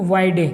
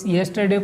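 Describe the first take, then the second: First: The word is squeezed into a short reduced form. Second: All syllables of the word are fully pronounced.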